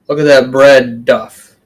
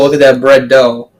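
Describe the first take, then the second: First: The last word rhymes with 'rough'. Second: The last word rhymes with 'go'. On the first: The speaker calls it wrong. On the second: The speaker calls it right.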